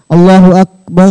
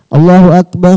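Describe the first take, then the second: First: The word akbar ends with an 'a' vowel. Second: The word akbar ends with no vowel.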